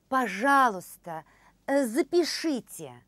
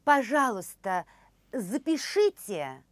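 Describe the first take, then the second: No difference in how they are said.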